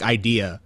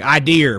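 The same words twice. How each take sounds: First: Said in the usual way. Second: "idea" with an r added at the end, like idear; Boston idea. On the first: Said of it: "Like, idea". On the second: Retold or imitated. Host mocking Boston speech, says "idea" ending in r. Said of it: "but when they say car".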